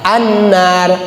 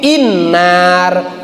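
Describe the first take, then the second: First: The opening vowel is an 'a' sound. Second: The opening vowel is not an 'a' sound. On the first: The speaker calls it right. "maka hamzahnya difathahkan" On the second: The speaker calls it wrong. "Enggak begini"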